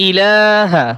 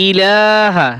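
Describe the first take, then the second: Both takes have the same delivery.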